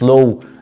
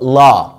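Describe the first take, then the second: First: The vowel is a rounded 'oh' sound. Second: The vowel is an open 'ah' sound. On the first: The speaker calls it wrong. "مش لو" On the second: The speaker calls it right. "اسمها فاكولتي اوف لا"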